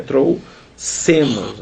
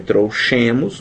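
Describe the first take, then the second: First: "trouxemos" with an S sound for the x; correct pronunciation. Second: "trouxemos" with a SH sound for the x; said as spelled. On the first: Teacher showing how it is pronounced, "trouxemos" with an s. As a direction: say "trouxemos" slowly, x as s. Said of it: "mas pronuncia trouxemos". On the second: Teacher showing how it is written, "trouxemos" with a sh. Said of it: "A gente escreve trouxemos". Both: Shown as a demonstration.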